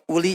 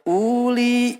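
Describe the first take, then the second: First: The first vowel is short. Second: The first vowel is drawn out long. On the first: The speaker calls it right. "dibacanya pendek" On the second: The speaker calls it wrong. "nggak boleh uli ya"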